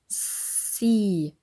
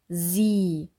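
First: The s is hissed without voice. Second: The s is buzzed with voice. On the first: "Kontrast üben zwischen dem stimmlosen S" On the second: "und dem stimmhaften S"

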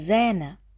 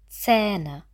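First: The first consonant is a voiced s sound. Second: The first consonant is a voiceless ts sound. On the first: The speaker calls it wrong. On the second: The speaker calls it right. "Z, also stimmlos"

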